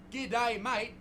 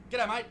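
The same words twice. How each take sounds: First: "G'day, mate" with each word separated; "G'day, mate" spelled out too deliberately; overdone slang. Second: "G'day, mate" run together as one word; "G'day, mate" squashed short, Aussie style; nice and quick. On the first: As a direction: pronounce "G'day" and "mate" carefully, as two distinct words. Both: Shown as a demonstration. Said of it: "Nice and quick".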